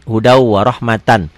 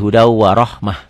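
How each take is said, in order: First: The last word ends with a full tan ending. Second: The last word ends with a short h sound. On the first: The reading continues without stopping. "kalau dibaca apa adanya" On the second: The reading stops at this word. "Kalau dihentikan jadi"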